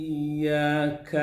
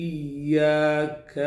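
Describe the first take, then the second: No difference in how they are said.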